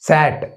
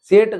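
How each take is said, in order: First: The vowel is a short open 'a'. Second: The vowel is a long 'ay' glide. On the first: The speaker calls it right. "యా అని పలకాలనేది" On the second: The speaker calls it wrong. "సేట్ కాదు"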